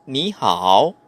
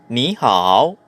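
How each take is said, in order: Both takes have the same delivery.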